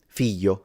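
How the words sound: The middle sound is a Y sound. This is how it is said in the south. "in the south, this is simplified into a Y"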